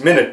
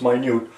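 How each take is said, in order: First: Said like the word for sixty seconds. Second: Said like the word meaning very small. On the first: A unit of time. "which is the same spelling as minute" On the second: Very small. "in this instance we'll pronounce it as minute"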